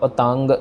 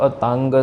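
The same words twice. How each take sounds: No difference in how they are said.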